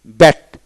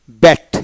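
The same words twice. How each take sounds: The two takes are said the same way.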